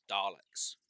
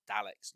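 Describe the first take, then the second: First: Daleks said as "Darleks"; long AR. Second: Daleks with the A of cat; short A. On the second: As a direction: open Daleks on a short "Dal". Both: Shown as a demonstration. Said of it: "it's Daleks, not Daleks".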